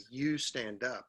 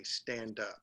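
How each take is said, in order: First: "You" hit first and firm, then "stand up"; stress on you. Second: Said in the usual way. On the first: Shown as a demonstration. Teacher shows the wrong order with "You" leading. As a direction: give "You" a clear push before "stand up". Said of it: "So if I don't say". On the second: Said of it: "I just say".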